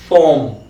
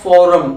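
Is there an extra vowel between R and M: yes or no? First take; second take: no; yes. First: The r and m join with no vowel between. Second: An extra vowel is inserted between r and m. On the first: The speaker calls it right. "It is फॉर्म" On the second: The speaker calls it wrong. "It is not फॉरम"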